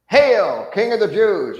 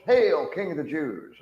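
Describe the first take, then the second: First: Loud, high jeering hail, full voice; mocking shout. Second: Sneering aside. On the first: Soldier jeering at Jesus's face, loud mock shout. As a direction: bellow the hail as a cruel joke. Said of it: "everybody's laughing". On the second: Retold or imitated. Soldier turning to his comrades, sneering aside. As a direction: share the joke with the other soldiers. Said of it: "they're looking to the other soldiers".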